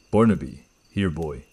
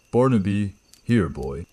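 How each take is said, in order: First: Put-on flat and spaced out, no intention behind "Barnaby, here, boy."; flat mimicked echo. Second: Called out to a dog; calling out. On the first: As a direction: copy the words like reading a phonetic transcript. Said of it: "It was flat, metallic". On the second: Acted. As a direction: call the dog from a distance. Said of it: "I called out".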